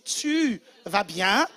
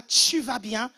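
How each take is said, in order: First: "tu" slow with a clean T in "tu vas bien"; correct "tu". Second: "tu" turned into "tchu" in "tu vas bien"; wrong "tchu". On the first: Shown as a demonstration. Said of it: "Non, c'est tu vas bien". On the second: Retold or imitated. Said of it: "On dit pas tu vas bien".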